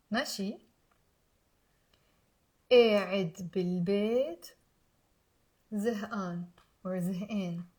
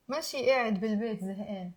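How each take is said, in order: First: Slow, soft phrases with long pauses; careful, low repeat-after-me delivery; slow teaching demo. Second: Quick, run-together teaching demo; fast, fluent model sentence; faster. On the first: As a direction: leave room for learners to repeat. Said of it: "I'm gonna say it slowly. Pause". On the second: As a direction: rattle the phrase off as one unit. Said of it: "Now faster". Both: Shown as a demonstration.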